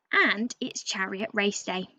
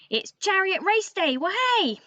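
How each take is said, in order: First: Said in the usual way. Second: Higher and gleeful, ending in a whoop; excited cheer. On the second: Shown as a demonstration. Raven restating the day to the children, now thrilled. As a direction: burst out with race-day glee. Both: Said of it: "Or, to put it another way".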